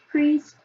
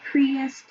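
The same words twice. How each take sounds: First: Said in the usual way. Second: "priest" as the pupil misread it; "priest" said the mistaken way; misread word. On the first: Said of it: "instead of priest". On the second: Retold or imitated. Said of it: "he used the word priest".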